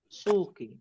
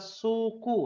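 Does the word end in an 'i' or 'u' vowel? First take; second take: i; u. First: The word ends with an 'i' vowel. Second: The word ends with a 'u' vowel. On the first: The speaker calls it right. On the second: The speaker calls it wrong.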